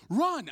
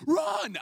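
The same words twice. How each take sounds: First: High, loud retold command; urgent mock battlefield yell; shouted order. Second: Very high, loud mock yell; frantic captain's cry, pitched way up; insistent shouted order. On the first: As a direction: call it out like a captain under fire. Captain orders him out under fire. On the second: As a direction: yell the command with full urgency. Captain repeats the order more urgently.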